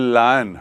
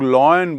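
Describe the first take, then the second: First: The first vowel sounds like 'lie'. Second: The first vowel sounds like 'loy'. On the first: The speaker calls it right. "ये लायन है" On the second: The speaker calls it wrong. "उसको कई लोग लॉयन बोलते हैं, वो गलत है"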